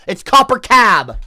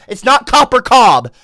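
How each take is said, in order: First: Slow, loud "Copper Cab" with a flat "a"; correct take "Copper Cab", "Cab" rhymes with "tab". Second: Slow, loud "Copper Cobb" with a wrong "Cobb"; wrong take "Copper Cobb", "Cobb" said with an "aw" vowel. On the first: Streamer correcting chat, loudly giving the right name. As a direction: hammer home the right version. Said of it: "but now you're getting cab wrong". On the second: Streamer correcting chat, loudly spelling out the wrong name. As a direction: spell out the wrong version, "Cobb" rhymes with "bob". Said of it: "now you're getting cab wrong".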